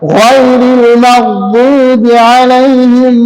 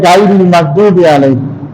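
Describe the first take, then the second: First: The first consonant is heavy and thick. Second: The first consonant is light and thin. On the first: The speaker calls it right. "গায়নের উচ্চারণটা মোটা করতে হয়।" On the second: The speaker calls it wrong. "অনেকে বলে"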